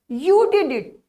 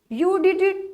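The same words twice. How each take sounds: First: It is said in an annoyed, disappointed tone. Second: It is said in an amazed, surprised tone. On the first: The speaker did not expect or want it done. "when there is a disappointment" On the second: The speaker cannot believe it was possible. "as like we are so surprised that how possible that he or she did it"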